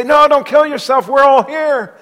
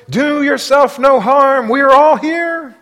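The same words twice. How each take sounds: First: Loud, high call to stop him; urgent call. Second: Calling out high and loud, slowly; loud cry. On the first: Paul calls to the jailer, loud and high. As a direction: shout to keep him from the sword. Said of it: "and they say". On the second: Paul cries out to the jailer, loud and slow. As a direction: cry out to stop him from harming himself. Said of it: "cried out with a loud voice". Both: Acted.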